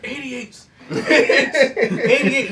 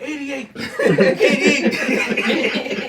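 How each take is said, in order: First: High, loud mock movie scream; imitated scream. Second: High, loud laughing shout; mock shout. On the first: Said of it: "they just screamed". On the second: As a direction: yell it playfully. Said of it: "I just be like".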